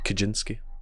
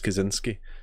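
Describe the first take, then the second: First: The middle consonant is a j sound. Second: The middle consonant is a z sound. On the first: This is the Polish way of saying the name. "in Poland, you would call it Kaczynski. Because the Z is a J sound" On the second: This is the American way of saying the name. "I use the American spelling"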